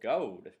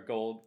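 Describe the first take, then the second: First: The L sound is dropped entirely. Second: The L sound is clearly pronounced.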